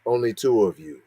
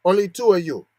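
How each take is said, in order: First: Said in the usual way. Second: A lightly put-on Asian accent on "Only two of you"; mock Asian accent. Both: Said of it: "That's not how you sound".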